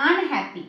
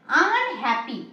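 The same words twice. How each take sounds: First: Said in the usual way. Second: unhappy drawn out as আন, then happy; drawn-out word parts. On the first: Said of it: "দুভাবে break করতে পারি". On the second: Shown as a demonstration. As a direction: stretch unhappy to show its two parts, আন and happy. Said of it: "আনহ্যাপিটাকে আমরা দুভাবে break করতে পারি".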